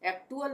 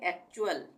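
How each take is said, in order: First: The middle consonant is a 't' sound. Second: The middle consonant is a 'ch' sound. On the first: The speaker calls it wrong. "एक्टुअल नहीं पढ़ेंगे" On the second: The speaker calls it right. "इसको हम पढ़ेंगे एक्चुअल"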